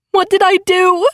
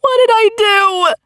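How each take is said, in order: First: Higher, stress on did; anguished sob. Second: Even higher breaking cry; anguished sob. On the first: Narrator over injured Veronica, anguished sobbing voice. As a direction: break into despair. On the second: Narrator repeats in anguish over Veronica, sobbing cry. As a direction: let the sob take the voice. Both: A narrator's reading. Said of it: "I burst into an anguished sob".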